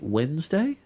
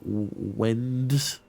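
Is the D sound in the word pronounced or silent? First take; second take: silent; pronounced. First: The D in the middle is silent. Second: The D in the middle is pronounced. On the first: "Is the D silent?" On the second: "Not Wednesday?"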